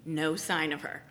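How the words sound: It is said in a matter-of-fact, grown-up way.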